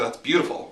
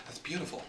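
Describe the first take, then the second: First: A light lifting "beautiful" of praise; encouraging. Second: "beautiful" breathed much softer and a little higher, in awe; almost whisper "beautiful", as if moved; hushed awe. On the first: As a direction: say "beautiful" as a mild rising compliment. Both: Shown as a demonstration. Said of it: "one has a spiritual sense".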